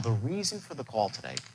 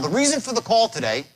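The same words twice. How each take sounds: First: The voice drops low and quiet. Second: It is said at a normal, undropped volume. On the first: The speaker calls it right. "You say" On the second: The speaker calls it wrong. "He says"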